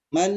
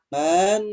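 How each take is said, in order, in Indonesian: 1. Vokalnya pendek, langsung menuju n. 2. Vokal sebelum n dibaca panjang. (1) "tapi man, nah seperti itu" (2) "jangan man"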